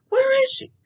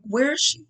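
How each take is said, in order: First: Anguished cry. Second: Said in the usual way. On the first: Retold or imitated. Wondering where her dead mom was.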